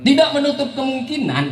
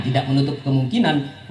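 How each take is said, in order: First: "Tidak menutup kemungkinan" lifted much higher, "tidak" hit hardest; emphatic first take. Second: Said in the usual way. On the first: Shown as a demonstration. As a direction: open high with stress on "tidak". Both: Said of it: "nah, tidak menutup kemungkinan".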